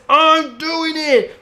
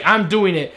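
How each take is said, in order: First: Much higher, drawn-out, slow whiny insistence; childish mock whine. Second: Said in the usual way. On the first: Iris sulkily insists to Barry, high mock whine. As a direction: stretch it out like a sulky kid.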